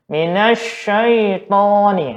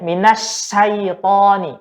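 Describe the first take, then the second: First: The sh is muffled, with lips nearly closed. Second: The sh sounds like a plain s. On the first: "enggak kita buka, tapi kita katup" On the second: "bukan shin lagi, tapi sin"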